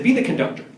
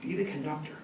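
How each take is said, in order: First: Put-on loud, high Brooklyn accent. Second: Put-on softly thinking aloud in plain accent; quiet musing. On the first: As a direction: bark "be the conductor" in Brooklyn accent. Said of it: "in his thick Brooklyn accent". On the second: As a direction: mull "Be the conductor" over quietly. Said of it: "I start thinking".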